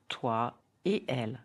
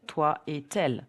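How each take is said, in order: First: The words are said separately, without a linking sound. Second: The words are linked with a connecting consonant sound. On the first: The speaker calls it right. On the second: The speaker calls it wrong. "There is no liaison in between, so don't say"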